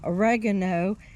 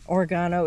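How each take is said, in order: First: It is said the non-Australian way. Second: It is said the Australian way.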